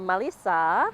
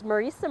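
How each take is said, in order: First: The middle consonant is an L sound. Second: The middle consonant is an R sound.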